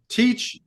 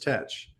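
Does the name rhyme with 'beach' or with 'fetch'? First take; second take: beach; fetch. First: The name rhymes with 'beach'. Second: The name rhymes with 'fetch'. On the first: This is the modern pronunciation. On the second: This is how it was said in the pirate's time.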